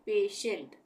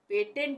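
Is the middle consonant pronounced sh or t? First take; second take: sh; t. First: The middle consonant is an sh sound. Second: The middle consonant is a plain t sound. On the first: The speaker calls it right. "श का उच्चारण होगा" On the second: The speaker calls it wrong. "पेटेंट नहीं बोलेंगे"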